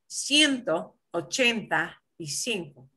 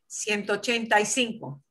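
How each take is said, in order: First: It is said slowly and carefully. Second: It is said at a normal, quicker speed.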